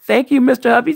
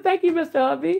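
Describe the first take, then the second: First: Said in the usual way. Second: A higher, lightly mimicked echo of her thanks; gently teasing impression of how she thanked him; imitating Ann. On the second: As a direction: mimic a friend's sweet thank-you, a touch higher. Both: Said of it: "She said".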